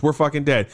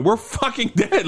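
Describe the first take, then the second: First: Matter-of-fact retold doom; imitating someone unbothered, in an everyday pitch; calm resignation. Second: High-pitched retold panic; imitating someone losing it, without shouting; freaking out. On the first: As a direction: state it evenly, as a settled fact. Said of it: "Dude, you seem very calm". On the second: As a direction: wail the doom in a raised pitch. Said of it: "like, freaking out at this point".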